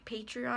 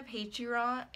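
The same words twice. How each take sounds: First: Patreon said cleanly as "Pay-tree-on"; corrected Patreon. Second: Patreon garbled as "Pay-tah", the r and final n swallowed; stumbled Patreon. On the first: Vlogger to viewers, correcting her slip on Patreon. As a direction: fixes the word Patreon carefully on a second try. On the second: Vlogger to viewers, fumbling the name of her Patreon. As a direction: trips over the word Patreon mid-sentence. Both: Real, not acted. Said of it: "I can't even talk".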